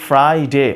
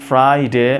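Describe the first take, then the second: The two takes are said the same way.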